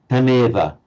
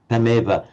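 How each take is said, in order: No difference in how they are said.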